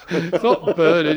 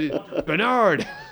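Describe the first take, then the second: First: The name is said in a British way. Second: The name is said in an American way.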